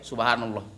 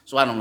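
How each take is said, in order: First: It is said slowly and clearly. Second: It is said very fast and slurred. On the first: Each repetition is counted and felt. The speaker calls it right. "kalau ada ininya kan agak lambat ya dikit ya" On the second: The repetitions are rushed without reflection. The speaker calls it wrong. "Nggak jelas lagi kan?"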